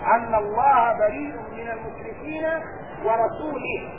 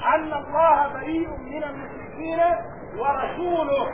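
First: The last word carries an i case ending. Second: The last word carries a u case ending. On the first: God disavows the polytheists and also His messenger. The speaker calls it wrong. "هذه القراءة خطأ" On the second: God and His messenger both disavow the polytheists. The speaker calls it right. "القراءة الصحيحة ... رسوله مبتدأ"

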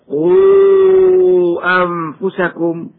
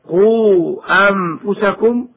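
First: The vowel before the glottal stop is drawn out. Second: The vowel before the glottal stop is held briefly. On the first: "وجواز توسطه بمقدار 4 أو 5 حركات هكذا" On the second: "جواز قصره بمقدار حركتين هكذا"

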